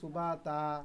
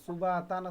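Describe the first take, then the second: First: The word ends on a vowel without n. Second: The word ends with a clear n sound. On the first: The reader stops at this word. "এইভাবে করে সবগুলো হবে" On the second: The reading continues without a stop. "সুবা তান আছে"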